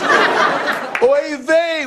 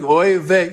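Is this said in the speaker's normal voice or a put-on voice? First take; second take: put-on; normal. First: It is said in an imitated character voice. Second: It is said in the speaker's ordinary voice. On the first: "I'm going to do the voice" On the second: "I'm not going to do the voice"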